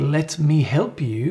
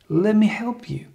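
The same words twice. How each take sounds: First: The words 'let me' are said fully and separately. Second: The words 'let me' blend into one short word. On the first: "When you say" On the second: "you could always say"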